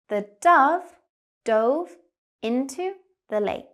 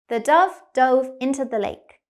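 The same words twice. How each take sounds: First: The sentence is spoken slowly. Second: The sentence is spoken quickly. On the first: "First, we'll go slow" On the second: "Now faster, like a native speaker"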